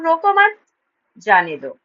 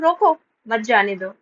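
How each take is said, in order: First: There is a pause right after 'mat'. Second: There is a pause right after 'roko'. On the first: Do not stop the person; let them go. "दूसरे sentence में बोल रही हूँ" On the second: Stop the person; do not let them go. "पहला sentence में मैं बोल रही हूँ"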